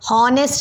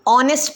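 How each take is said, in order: First: The word starts with an h sound. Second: The word starts with a vowel, no h. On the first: The speaker calls it wrong. "हॉनेस्ट नहीं पढ़ते" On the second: The speaker calls it right. "वहाँ पे एच silent है। हम पढ़ते वक्त उसे ऑनेस्ट पढ़ते हैं"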